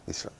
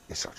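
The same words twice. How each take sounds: The two takes are said the same way.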